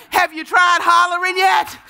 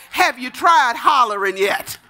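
First: Higher, pressing preacher's holler; raised, insistent preaching cry; hollered challenge. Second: Said in the usual way. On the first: Real, not acted. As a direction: push the question up high at the congregation. Preacher repeats question, building intensity.

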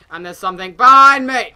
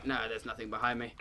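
First: Loud rise into a panicked cry; sudden alarm. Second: Low, quiet, quick aside; dropping back down. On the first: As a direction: cry out as if something is right there. Alarm, then takes it back. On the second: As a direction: take it back quickly under the level of the alarm. Takes back the alarm. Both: Real, not acted.

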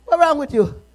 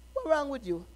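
First: Louder now, with WRONG pressed hard; the question called out, loud and pressing; loud demand. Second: A quiet, puzzled ask; a hushed first try at the question; soft question. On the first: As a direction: fling the question out at the church. Preacher repeats question, now loud. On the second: Preacher voices imagined question softly. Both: Acted.

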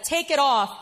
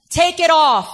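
First: Said in the usual way. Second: Loud mock yell of a stranger; retold yell. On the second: Mother's harasser yelling at her in the supermarket, loud retold yell. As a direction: bark the order out, hostile. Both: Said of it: "somebody yelled at her and said".

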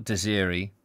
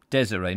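First: "Desiree" as duh-ZEER-ee; mistaken pronunciation. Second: "Desiree" as DEZ-uh-ray; corrected pronunciation. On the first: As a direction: say "Desiree" stressed in the middle, ending in ee. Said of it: "not Desiree". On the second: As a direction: say "Desiree" stressed first, ending in ray. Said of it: "Desiree, not Desiree". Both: Shown as a demonstration.

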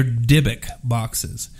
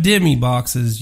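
First: Slow, firm "Dybbuk boxes" with a clear b in the middle; "Dybbuk" set right, slow and deliberate; correct pronunciation. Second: "Dimmy boxes" said with an m sound, the way a hillbilly says it; "Dimmy boxes", the mistaken name said with scorn; mock wrong pronunciation. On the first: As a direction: slowly spell out "Dybbuk" correctly. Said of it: "They're not Dimmy boxes". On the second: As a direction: mockingly say "Dimmy" instead of Dybbuk. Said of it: "They're Dybbuk boxes". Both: Shown as a demonstration.

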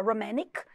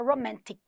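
First: ROMANTIC with no T after N, "romannic"; American "ro-MAN-nic" for romantic; American pronunciation. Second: ROMANTIC with a crisp T after N; British romantic, every T sounded; British pronunciation. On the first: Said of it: "o americano vai falar". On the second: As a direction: say romantic the British way, "ro-MAN-tic". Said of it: "o britânico vai falar romantic". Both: Shown as a demonstration.

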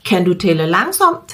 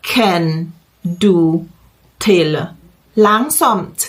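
First: Said in the usual way. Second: Slow model question, pausing after each word. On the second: Shown as a demonstration. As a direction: separate each word clearly for learners. Word by word, then connected. (พูดช้าๆ แยกทีละคำ)

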